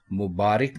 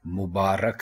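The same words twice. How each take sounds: First: मुबारक said mubaarik, i after r; मुबारक as mubaarik, marked wrong; wrong pronunciation. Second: मुबारक said mubaarak, a after r; मुबारक as mubaarak, falling; correct pronunciation. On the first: Teacher repeating the wrong मुबारक, mubaarik. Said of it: "मुबारक नहीं". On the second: Teacher confirming मुबारक as mubaarak. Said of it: "रे के ऊपर ज़बर है". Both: Shown as a demonstration.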